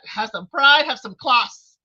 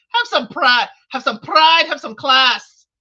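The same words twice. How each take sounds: First: Badly faked British accent, punched out loud; half-successful British impersonation with a broad "ah" in class; Kojo's attempted British accent. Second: Loud, emphatic impersonation; Kojo voice. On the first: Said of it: "I can't do the British accent". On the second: Retold or imitated. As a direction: mimic someone forcefully demanding self-respect. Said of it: "said in my Kojo voice".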